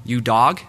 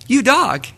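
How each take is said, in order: First: Said in the usual way. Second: "You dog" much higher and louder, grinning; smiling friendly "You dog"; cheerful mock greeting. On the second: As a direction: beam it like a warm hello. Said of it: "with a smile on my face and saying".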